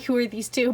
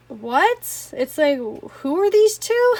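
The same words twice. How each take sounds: First: Said in the usual way. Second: Slow, louder, higher puzzled question; mock confused. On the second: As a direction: ask it as if truly baffled by two strangers. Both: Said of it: "Well, not, like".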